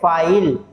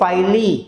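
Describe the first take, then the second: First: It ends on the l with no vowel. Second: It ends with an extra ee vowel sound. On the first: The speaker calls it right. "हम कह रहे हैं फाइल" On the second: The speaker calls it wrong. "हम ये नहीं कह रहे हैं फाइली"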